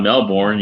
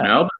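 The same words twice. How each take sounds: First: The name is pronounced the American way. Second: The name is pronounced the Australian way. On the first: The speaker calls it wrong. "It's not Melbourne. You damn American" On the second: The speaker calls it right.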